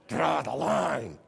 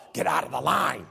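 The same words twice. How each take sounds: First: Said in the usual way. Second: Impatient yell. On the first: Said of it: "No, it's". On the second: Pretend. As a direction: bark it at the dawdlers. Shouting at McDonald's customers.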